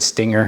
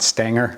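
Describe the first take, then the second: First: The first vowel is a clear short i. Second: The first vowel is a Southern drawled ay. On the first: The speaker calls it right. "I said stinger" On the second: The speaker calls it wrong. "not stanger. I live in the South"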